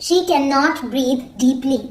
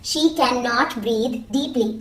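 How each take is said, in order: The two takes are said the same way.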